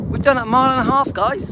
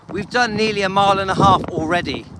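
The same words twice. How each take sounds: First: Higher, louder and faster; excited. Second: Said in the usual way. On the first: Real, not acted. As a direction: proudly announce the milestone. Repeats distance excitedly.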